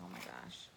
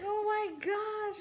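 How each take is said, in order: First: Breathy whisper of fright; scared whisper. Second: High, loud shocked shriek; panicked shriek. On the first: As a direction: whisper it, still spooked. Retold scared reaction. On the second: Retold panic over collapsed girl. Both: Retold or imitated.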